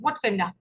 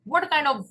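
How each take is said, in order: First: Kind of is run together as kinda. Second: Kind of is said as two separate words.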